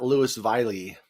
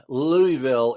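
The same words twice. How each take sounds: First: "Louisville" with the s sounded and a "vie-lee" ending; absurdly literal "Lewis-vylie" for "Louisville"; deliberate mispronunciation. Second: "Louisville" with silent s; smooth "Louie-vil" for "Louisville"; usual pronunciation. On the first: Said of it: "is not Louisville". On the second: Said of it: "for the same reason Louisville is not". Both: Shown as a demonstration.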